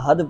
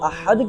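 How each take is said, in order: First: The h is a plain, breathy h. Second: The h is tense, from the mid-throat. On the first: Coward. The speaker calls it wrong. "हा की जगह हा पढ़ दे" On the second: One, without partner. The speaker calls it right. "हल्क के वस्त यानी दरमियान हल्क से"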